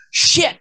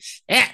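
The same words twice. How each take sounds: First: "Shit" pitched up, final T spat out hard. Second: "Shit" with the final T dropped, cut off short; shit without the T. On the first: Friend demonstrating his hard T on the swear. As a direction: snap the T of "Shit" sharply. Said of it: "you have to hit the T really hard". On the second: To a friend, showing how he swallows the T. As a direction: clip "Shit" so the T never lands. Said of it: "Sometimes I just leave out the T". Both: Shown as a demonstration.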